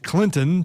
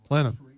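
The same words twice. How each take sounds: First: The middle T sound is clearly pronounced. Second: The middle T sound is dropped. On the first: This marks the speaker as an outsider. "I make sure that I pronounce it Clinton, so I get weird looks" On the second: This is how the locals say it. "they don't pronounce the T"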